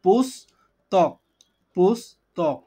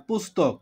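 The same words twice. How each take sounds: First: "পুস্তক" as higher পুস, pause, তক; slow syllable breakdown. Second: Said in the usual way. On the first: Shown as a demonstration. Teacher showing two parts make the word, "পুস্তক" slowly in two pieces. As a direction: stretch "পুস্তক" into two slow separate halves. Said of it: "দুইটা ভাঙা অংশ মিলে পুস্তক". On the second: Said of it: "দুইটা অক্ষর".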